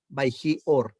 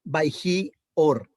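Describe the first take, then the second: First: Said in the usual way. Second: "Baihi or" drawn out slowly as one joined phrase; slow Hebrew reading. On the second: Shown as a demonstration. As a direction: stretch out "Baihi or" like a teacher demonstrating. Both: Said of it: "se unen por este makef de acá".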